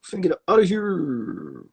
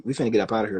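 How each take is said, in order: First: Sing-song sign-off. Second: Said in the usual way. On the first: Real, not acted. Host signing off to listeners, higher sing-song voice. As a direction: sing it out as a playful goodbye. Wrapping up the show.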